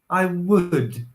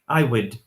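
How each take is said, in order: First: The word would is longer with a strong w. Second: The word would is short and reduced. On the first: "my pronunciation is a little bit longer... A lot more emphasis on the w" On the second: "That's really, really short"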